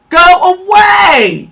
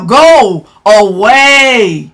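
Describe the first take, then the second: First: Shouted go away. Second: Drawn-out, lower go away; low slow dismissal. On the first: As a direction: yell them out of the room. Dismissing the commenter. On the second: Streamer dismissing a troll, low and slow. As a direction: wave them off with contempt. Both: Real, not acted.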